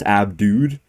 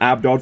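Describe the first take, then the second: First: The name ends with a long 'dude' sound. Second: The name ends with a short 'dod' sound. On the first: The speaker calls it right. "supposedly it's pronounced Abdude" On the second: The speaker calls it wrong. "I was calling him Abdod for a long time"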